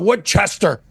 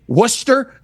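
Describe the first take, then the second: First: Every letter of the name is sounded out. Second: The middle letters are dropped from the name. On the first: An outsider who does not know the local name. The speaker calls it wrong. "hey, how do I how do I get to" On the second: The way locals say the name. The speaker calls it right. "you mean Worcester? You idiot"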